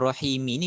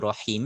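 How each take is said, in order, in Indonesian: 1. Kata ini berakhir dengan bunyi vokal. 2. Kata ini berakhir pada konsonan, vokalnya dihilangkan. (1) "kita bunyikan rahimi ni sebab kita nak tahu ada berapa baris" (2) "kalau kita baca biasa tu memang kita rahim lah sebab kita berhenti"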